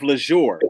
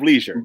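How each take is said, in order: First: Leisure is said in a fancy, luxurious way. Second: Leisure is said in the ordinary, everyday way. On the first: This is the brand name's pronunciation. The speaker calls it right. "It's Brad of leisure" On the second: This is the common word's pronunciation. The speaker calls it wrong. "not Brad of leisure"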